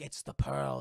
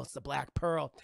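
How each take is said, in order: First: Hushed whisper of recognition. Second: Said in the usual way. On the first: Retold or imitated. Johnny Depp at the cell window recognising the ship, whispered. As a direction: breathe it, awed and hushed.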